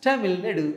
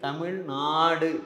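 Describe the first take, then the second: First: The first vowel of Nadu is short. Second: The first vowel of Nadu is long. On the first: The speaker calls it wrong. "புதுசா ஒருத்தன் அந்த வார்த்தையை உச்சரிச்சா எப்படி ஒரு நடுன்னு சொல்லுவான்" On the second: The speaker calls it right. "நாடுன்னு தானே sir இருக்கு"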